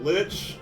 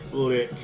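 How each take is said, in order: First: The word ends with a ch sound. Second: The word ends with a k sound.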